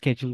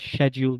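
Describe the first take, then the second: First: It begins with a 'ske' sound. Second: It begins with a 'shya' sound. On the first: "বা স্কেডিউল বলার চেষ্টা করেন" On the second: "বলেন শ্যাডিউল"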